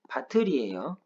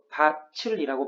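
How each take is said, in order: First: The middle consonant is a plain t sound. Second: The middle consonant is a ch sound. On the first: The speaker calls it right. "밭을이라고 하는 발음은 밭을이에요" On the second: The speaker calls it wrong. "이거 밭을이라고 발음하면 안 돼요"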